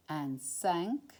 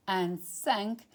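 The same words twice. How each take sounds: The two takes are said the same way.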